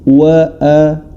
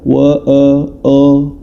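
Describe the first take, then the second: First: The vowel is a full, clear a sound. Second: The vowel is darkened toward an o sound. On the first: The speaker calls it right. "dibaca sebagaimana semestinya" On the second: The speaker calls it wrong. "jangan sampai dibaca wa a o"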